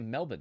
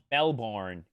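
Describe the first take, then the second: First: The word is clipped, with syllables reduced. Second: Every syllable of the word is fully pronounced. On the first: "We say Melbourne" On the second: "It feels too long to say"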